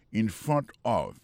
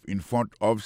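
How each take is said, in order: First: Slow, carefully spaced words; deliberate classroom pace; slow teaching read. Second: Said in the usual way. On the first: Shown as a demonstration. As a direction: spell it out slowly for learners. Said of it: "Jodi a mwen kampe". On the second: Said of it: "se devan".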